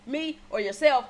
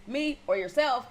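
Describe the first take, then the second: No difference in how they are said.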